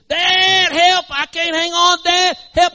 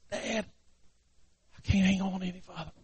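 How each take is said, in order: First: High, loud panicked plea; desperate hollering. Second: Very soft, strained farewell plea; faint despair. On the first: Boy slipping off the cliff to his dad, desperate hollering. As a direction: cry out while losing your grip. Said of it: "he starts hollering". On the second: Boy hanging by one hand to his dad, faint despair. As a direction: let the cry fade to almost nothing. Exhausted boy about to fall. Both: Acted.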